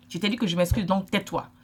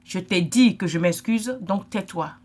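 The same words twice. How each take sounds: First: Said in the usual way. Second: Slow, loud, curt mock brush-off; imitating someone shutting down an apology, slow and curt; dismissive brush-off. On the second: To a hurt sister, a slow curt mock dismissal. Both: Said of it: "Tu lui dis en bon français".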